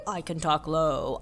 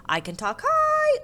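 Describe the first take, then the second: First: Sing-song line settling low on "low"; talking low. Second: Sing-song line leaping very high on "high"; talking high. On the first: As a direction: drop back down on "low". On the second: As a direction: send "high" way up in pitch. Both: A narrator's reading. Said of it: "thinking about high and low and start to sing".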